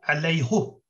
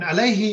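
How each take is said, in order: First: The word ends with a 'u' vowel. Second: The word ends with an 'i' vowel. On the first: This is a one-off exception in one reading tradition. "in one single case in the Quran, Hafs and only Hafs reads in Surah Al-Fath" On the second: This is the usual reading of the word. "alayhi is how you would normally say it"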